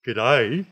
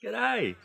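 First: Tense, loud questioning greeting; like having a test. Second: High, delighted greeting; with feeling. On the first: Teacher mimicking a nervous learner greeting a local, tense and questioning. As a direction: push it out loudly, unsure, rising at the end. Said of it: "like you're having a test". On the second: Teacher showing how to greet locals with feeling, high and delighted. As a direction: sing it out high, like meeting a friend. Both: Shown as a demonstration.

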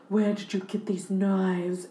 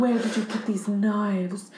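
First: Slow, every consonant overly crisp; lightly voiced Marilyn, over-enunciated; over-enunciating Marilyn. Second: Slow, over-enunciated breathy starlet; lightly voiced Marilyn, every word crisp. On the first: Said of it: "you're, like, over-enunciating". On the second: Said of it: "when you try to talk like Marilyn, you're, like, over-enunciating".

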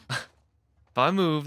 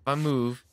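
First: Slowed down, laughing through the words. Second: Said in the usual way. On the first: Real, not acted. Gamer laughing at his own panic, slow and amused. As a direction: laugh as you repeat it in disbelief.

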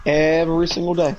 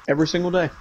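First: EVERY stretched out for emphasis; emphatic repeat. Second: Said in the usual way. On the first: Real, not acted. Complaining about what he deals with, emphatic repeat. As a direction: draw out "Every", then land "single day".

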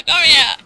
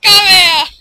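First: Taunting shout. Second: Very loud, high scream; screaming taunt. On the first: Taunting enemies. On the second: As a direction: scream the taunt at full force. Taunting enemies, louder. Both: Real, not acted.

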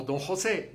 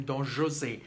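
First: "José" with a breathy Spanish h at the start; Spanish pronunciation. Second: "José" with a soft French zh at the start; French pronunciation. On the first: Explaining what they don't call him, Spanish-style "José" with an h sound. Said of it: "the pronunciation of José". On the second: Explaining what the opera calls him, French-style "José" with zh. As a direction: say "José" the French way, zho-ZAY. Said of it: "the opera is in French". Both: Shown as a demonstration.

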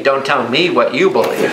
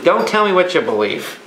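First: Mock comeback with "you" lifted; stress on YOU. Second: Firm rebuke leaning on "tell"; "tell" stressed, plain firm ending. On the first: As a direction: lower retort, "you" stressed, rising end. Imagined listeners throw it back. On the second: Retold or imitated. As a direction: tell them off, weight on "tell". Preacher rebukes what people believe.

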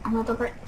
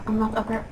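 No difference in how they are said.

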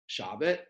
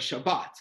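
First: "Shabbat" with the first syllable stressed, the second weak. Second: "Shabbat" with a weak first syllable, stressed final one; stress on last syllable. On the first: Teacher showing how not to say the word, first-syllable stress. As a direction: hit the front of "Shabbat". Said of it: "Not, uh, uh, Shab". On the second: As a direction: land on the end of "Shabbat". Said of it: "on the last syllable of the word". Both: Shown as a demonstration.

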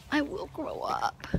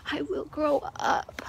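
First: Softer unvoiced whisper of the promise. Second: Said in the usual way. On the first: Shown as a demonstration. Jody meditating on the promise, in a whisper. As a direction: whisper it to yourself like a mantra.

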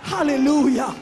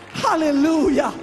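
Both takes have the same delivery.

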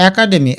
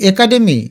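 First: একাডেমি as ae-kademi; correct open vowel. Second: একাডেমি as e-kademi; wrong closed vowel. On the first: Teacher correcting it, একাডেমি said ae-kademi. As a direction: begin একাডেমি on ae as in cat. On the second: Teacher questioning a wrong form, একাডেমি said e-kademi. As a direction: begin একাডেমি on a narrow e. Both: Shown as a demonstration. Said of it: "না, এটার উচ্চারণ আছে".

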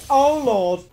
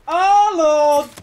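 First: Said in the usual way. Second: Drawn-out, high, loud cry; louder exclamation. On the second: Real, not acted. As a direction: wail it out on the repeat. Repeats exclamation louder and higher.

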